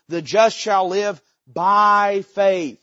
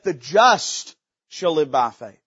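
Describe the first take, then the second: First: The stress is on "by faith". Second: The stress is on "the just".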